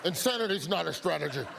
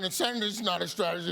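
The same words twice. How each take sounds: First: Fast, laughing through the words; can't get the quote out without cracking up; laughing repeat. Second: Fast, punchy deadpan repeat; mock-emphatic repeat. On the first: Acted. Host repeats the reporter's line, laughing. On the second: Host repeats the line again, fast and deadpan. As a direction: hammer the quote home for the audience.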